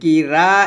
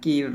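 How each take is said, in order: First: The vowel after the r is drawn out long. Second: The vowel after the r is kept short. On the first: The speaker calls it wrong. "কি রা এটা না" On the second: The speaker calls it right. "র এক লিপটানো হবে, কি র বলতে হবে"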